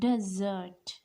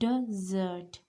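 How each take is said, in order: First: The stress is on the last syllable. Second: The stress is on the last syllable.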